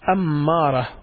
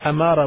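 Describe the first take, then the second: First: The m sound is stressed and held. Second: It starts with a plain vowel onset. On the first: It means one who commands. "with stressing on the M" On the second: It means sign. "with the Alif"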